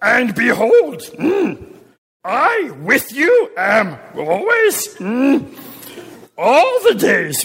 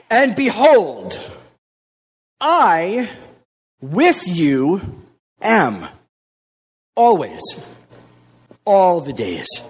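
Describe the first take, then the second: First: It is said in a Yoda-like voice. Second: It is said in his normal voice.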